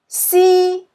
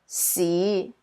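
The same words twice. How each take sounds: First: It is said with Cantonese tone one. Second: It is said with Cantonese tone five.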